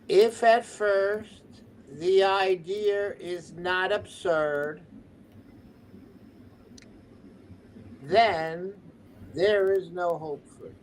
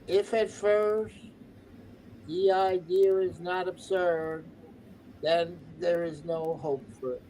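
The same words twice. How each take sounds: First: It is read slowly. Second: It is read at normal speed.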